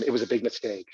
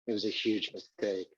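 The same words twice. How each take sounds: First: Said in the usual way. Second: Much softer and lower; quiet regret. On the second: Real, not acted. Narrator admitting his casting error, softly and lower. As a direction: let the admission drop away to almost nothing.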